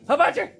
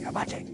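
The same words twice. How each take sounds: First: The word is said at a loud volume. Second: The word is said at a quiet volume. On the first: The speaker calls it wrong. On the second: The speaker calls it right.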